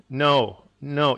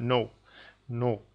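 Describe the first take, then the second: First: "no" with an English O sliding into a W; English "no", louder, with a gliding semi-vowel ending; glided vowel. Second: "no" with a pure, unglided O; "no" ending on a clean O, no W glide; pure vowel. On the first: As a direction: let the O in "no" glide off as the pitch drops. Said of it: "you hear the pitch drop and the glide". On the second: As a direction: hold the O in "no" steady, like Italian or Spanish. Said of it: "it's not a pure sound". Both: Shown as a demonstration.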